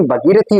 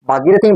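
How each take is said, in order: First: भगीरथी with a short first a; correct pronunciation. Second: भागीरथी with a long first aa; incorrect pronunciation. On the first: Teacher giving students the preferred form, correct pronunciation. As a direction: say भगीरथी as bha-gee-ra-thee. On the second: Teacher contrasting two forms for students, incorrect pronunciation. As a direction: say भागीरथी as bhaa-gee-ra-thee. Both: Shown as a demonstration. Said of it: "भगीरथी होता है".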